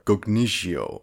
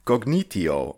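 First: Cognitio with a soft "sh", slowly; soft SH pronunciation. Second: Cognitio with a T sound, "cog-NEE-tee-oh"; hard T pronunciation. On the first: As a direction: say Cognitio as "cog-NEE-shee-oh". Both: Shown as a demonstration. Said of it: "not sure how to pronounce that".

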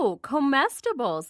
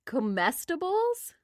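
First: Comestibles said as koh-MES-tuh-bulls, firm and falling; correcting pronunciation. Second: Comestibles said as kuh-MES-tuh-bulls, rising and unsure; unsure pronunciation. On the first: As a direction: insist on comestibles with a long koh. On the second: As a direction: sound out Comestibles slowly like a question. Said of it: "I really don't know what this word is". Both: Shown as a demonstration.

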